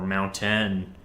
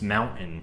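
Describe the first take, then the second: First: The middle t sound is fully pronounced. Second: The middle t sound is cut out. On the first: "I don't say mountain" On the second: "The way I pronounce it is mountain"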